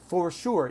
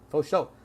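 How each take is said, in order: First: It is pronounced carefully, exactly as spelled. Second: It is pronounced in a Southern AAVE accent. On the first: "No one says for sure. ... We do not say it that way" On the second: "For is pronounced faux, sure is show"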